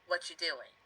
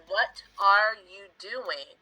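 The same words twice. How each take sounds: First: Quick, words run together; lazy everyday contraction; contracted fast form. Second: Every word said slowly; careful, unhurried full form. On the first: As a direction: squash it into one quick phrase. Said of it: "It's much easier to say". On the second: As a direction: spell out each word of the question. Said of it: "is a lot of work to say in your mouth". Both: Shown as a demonstration.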